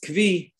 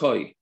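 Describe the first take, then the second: First: The word sounds like 'kvee', with a v sound. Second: The word sounds like 'koy', one vowel glide.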